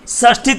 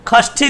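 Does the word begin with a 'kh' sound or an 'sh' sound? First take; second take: sh; kh. First: The word begins with an 'sh' sound. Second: The word begins with a 'kh' sound.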